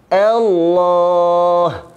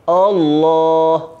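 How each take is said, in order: First: The opening vowel is thin and light. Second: The opening vowel is thick and heavy. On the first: The speaker calls it right. "alif itu mesti ditarqiqkan, mesti direndahkan" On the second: The speaker calls it wrong. "Yang salah"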